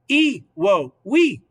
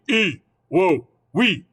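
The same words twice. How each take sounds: First: It is said in a high, squeaky creature voice. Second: It is said in a deeper, lower voice. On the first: "I'm going to try to replicate that silly little noise" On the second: "you want a, a deeper voice"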